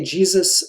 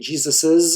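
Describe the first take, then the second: First: No extra syllable follows the name. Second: An extra 'iz' syllable follows the name. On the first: The speaker calls it right. "probably say" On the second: The speaker calls it wrong. "If we add an apostrophe s"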